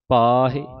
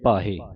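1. aa ਸਵਰ ਉੱਤੇ ਜ਼ੋਰ ਹੁੰਦਾ ਹੈ ਅਤੇ ਇਹ ਲੰਮਾ ਖਿੱਚਿਆ ਜਾਂਦਾ ਹੈ। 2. aa ਸਵਰ ਛੋਟਾ ਰੱਖਿਆ ਜਾਂਦਾ ਹੈ, ਖਿੱਚਿਆ ਨਹੀਂ ਜਾਂਦਾ। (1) "ਇਸ ਕੰਨੇ ਦੇ ਜ਼ੋਰ ਦੇ ਕੇ ਲਮਕਾ ਕੇ ਹਾਹੇ ਸਿਆਰੀ ਆਪੇ ਉਚਾਰਨ ਹੋਵੇਗੀ" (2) "ਜਦੋਂ ਆਪਾਂ ਕੰਨੇ ਨੂੰ ਲੰਮਾ ਨਹੀਂ ਬੋਲਦੇ"

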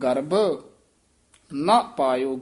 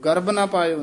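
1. garabh ਸ਼ਬਦ ਤੋਂ ਬਾਅਦ ਇੱਕ ਛੋਟਾ ਠਹਿਰਾਅ ਆਉਂਦਾ ਹੈ। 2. garabh ਸ਼ਬਦ ਤੋਂ ਬਾਅਦ ਕੋਈ ਠਹਿਰਾਅ ਨਹੀਂ ਆਉਂਦਾ। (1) "ਮਨਮੁਖ ਗਰਭ ਇੱਥੇ ਠਮਕ ਲਾਉਣੀ ਹੈ।" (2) "ਨਹੀਂ ਕਹਿਣਾ"

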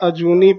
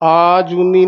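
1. ਪਹਿਲਾ ਸਵਰ ਛੋਟਾ ਹੈ। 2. ਪਹਿਲਾ ਸਵਰ ਲੰਬਾ ਹੈ।

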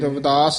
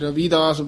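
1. ਦੂਜੇ ਅੱਖਰ ਵਿੱਚ ਛੋਟੀ ਇ ਦੀ ਮਾਤਰਾ ਹੈ। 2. ਦੂਜੇ ਅੱਖਰ ਵਿੱਚ ਲੰਬੀ ਈ ਦੀ ਮਾਤਰਾ ਹੈ। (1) "ਇਹ ਰਵਿਦਾਸ ਹੀ ਉਚਾਰਨ ਕਰਨਾ" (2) "ਕਈ ਰਵਿਦਾਸ ਬੋਲ ਜਾਂਦੇ ਨੇ ਬਿਹਾਰੀ ਨਾਲ"

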